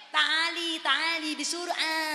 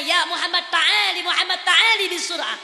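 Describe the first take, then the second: First: Slowed, softer Arabic, word by word; slow Arabic repeat. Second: Calling out in Arabic, a little raised. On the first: Shown as a demonstration. Preacher repeating the Arabic slowly for the audience. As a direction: spell out the Arabic slowly for the crowd. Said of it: "Ngerti kagak?". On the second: Acted. Moses calling Muhammad over, in Arabic. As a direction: call him over in Arabic. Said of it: "Nabi Musa bertanya".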